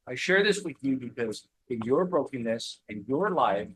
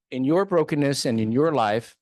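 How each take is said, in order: First: Said in the usual way. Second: Louder, driving the repeated phrase home; emphatic repeat. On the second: Real, not acted. Urging struggling listeners to believe, louder emphatic repeat. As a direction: punch the repeat out to the room.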